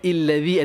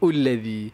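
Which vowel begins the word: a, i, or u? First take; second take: i; u. First: The word begins with an i vowel. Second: The word begins with a u vowel. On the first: "Tak boleh ada illazi" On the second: "ataupun ullazi"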